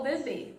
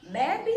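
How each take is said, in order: First: "bebê" with the final BÊ stressed; be-BÊ, weight at the end; stress on last syllable. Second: "bebe" stressed on the first syllable; BE-be, weight up front. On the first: Teacher offers the other reading, last syllable stressed. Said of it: "se eu tenho que pronunciar". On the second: Teacher asks which way to pronounce it, first syllable stressed. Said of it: "Se não tivesse o acento". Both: Shown as a demonstration.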